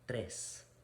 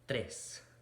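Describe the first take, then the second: The two takes are said the same way.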